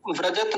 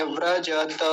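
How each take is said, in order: First: व्रजत said as "vrajat"; quick व्रजत ending on a bare t; wrong clipped ending. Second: व्रजत as "vra-ja-ta"; three full syllables in व्रजत, last vowel kept; all syllables full. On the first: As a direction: drop the final a of व्रजत. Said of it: "नहीं बोलेंगे". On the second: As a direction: sound the final a in व्रजत. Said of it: "सारे ये पूरे हैं". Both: Shown as a demonstration.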